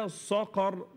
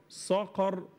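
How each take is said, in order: The two takes are said the same way.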